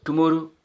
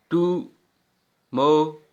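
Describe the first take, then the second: First: Said in the usual way. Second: tomorrow very slowly as three separate beats; long pauses inside tomorrow, टु, मा, रो; syllable by syllable. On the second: Shown as a demonstration. (Tomorrow को तीन हिस्सों में रुककर) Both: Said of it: "one, टू, three हो गया".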